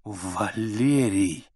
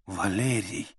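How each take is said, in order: First: Very slow, stunned whisper; slow drawn whisper. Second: Soft, stunned whisper. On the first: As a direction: draw the name out slowly. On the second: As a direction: breathe the name in shock. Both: A narrator's reading. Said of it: "прошептала она".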